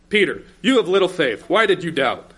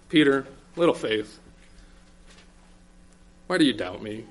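First: It sounds angry and rebuking. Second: It sounds gentle and understanding.

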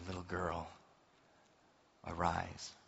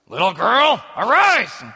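First: It is said softly and tenderly. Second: It is said like an impatient parent waking a child.

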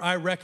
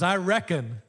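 First: It is said in a plain, neutral accent. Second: It is said in a rural hillbilly drawl.

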